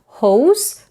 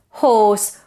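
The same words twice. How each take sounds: First: HOSE with the vowel gliding from o to u; wrong gliding vowel. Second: HORSE with a very rounded, steady o and no glide; steady closed vowel. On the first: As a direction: say HOSE slowly, letting the vowel change. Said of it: "it's not hose". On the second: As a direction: say HORSE with tense round lips, vowel unchanged. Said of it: "it's steady. It doesn't change". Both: Shown as a demonstration.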